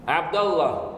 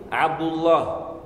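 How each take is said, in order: First: Abdallah with a after the d; Abdallah, dal with fatha. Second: Abdullah stretched out very slowly; Abdullah, u after the d, dwelt on. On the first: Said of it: "Mais on peut dire". (Abdallah avec un a après le d) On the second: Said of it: "Son nom, c'est". (Abdullah très lentement, avec un u) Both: Shown as a demonstration.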